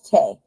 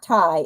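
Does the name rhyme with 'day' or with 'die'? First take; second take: day; die. First: The name rhymes with 'day'. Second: The name rhymes with 'die'. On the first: The speaker calls it right. "it's Tay" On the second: The speaker calls it wrong. "Not Ty"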